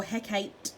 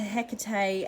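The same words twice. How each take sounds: First: Hecate said in two syllables, HEK-ayt; Shakespearean pronunciation. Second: Hecate said in three syllables, HEK-uh-tay; modern pronunciation. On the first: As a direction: end Hecate on "ate", no final vowel. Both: Shown as a demonstration. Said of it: "as they pronounce it in Shakespearean times".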